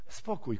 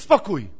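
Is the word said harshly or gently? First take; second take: gently; harshly. First: The word is said in a soft, gentle tone. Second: The word is said in a sharp, harsh tone. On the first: The children are kindly asked to be quiet. The speaker calls it right. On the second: The children are scolded into silence. The speaker calls it wrong.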